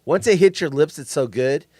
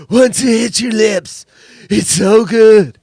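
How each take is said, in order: First: Said in the usual way. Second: Drawn-out, forceful movie-quote voice; mimicking the co-host. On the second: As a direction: belt out the quote slowly, like your co-host. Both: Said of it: "Do I have to say it like you?".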